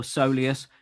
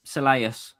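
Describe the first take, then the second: First: "soleus" with stressed SOH at the start; soleus said SOH-lee-us. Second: "soleus" with a LAY in the middle; soleus said suh-LAY-us. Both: Real, not acted. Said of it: "however you wanna say it".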